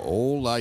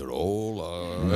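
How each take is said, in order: First: Said in the usual way. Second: Low, drawn-out mock greeting; deep, lingering comic hello; kids imitating host's hola. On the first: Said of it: "Yo le digo". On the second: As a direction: stretch "Hola" down like a parody radio host. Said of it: "Mis hijos lo hacen también".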